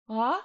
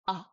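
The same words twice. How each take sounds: First: Ah eased in without a click; smooth-start ah. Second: Ah with a hard click onset; click-start ah. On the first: Teacher contrasts with the click start, smooth-start ah. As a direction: glide gently into ah. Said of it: "is a smooth start". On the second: Teacher shows where the throat engages, click-start ah. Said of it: "you're gonna feel this click start". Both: Shown as a demonstration.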